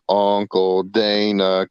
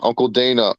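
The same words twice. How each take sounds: First: Drawn-out call. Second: Said in the usual way. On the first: Pretend. Mock calling out to Dana.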